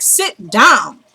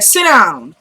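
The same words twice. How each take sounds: First: SIT and DOWN separated and drawn out; insistent repeated order. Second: Brisk command with falling pitch; retold order. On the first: Retold or imitated. Woman repeats order to man wanting to go, drawn-out command. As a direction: stretch "Sit down" into two falling words. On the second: Woman orders restless man to sit, brisk retold command. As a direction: tell him to sit, quickly. First order, then repeated more firmly.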